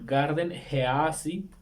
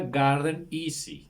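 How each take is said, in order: First: The name is read with Spanish spelling sounds. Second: The name is said with English sounds. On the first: "Lo voy a pronunciar así como se pronuncia en español" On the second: "que se pronuncia Garden Easy. Espero haberlo pronunciado bien"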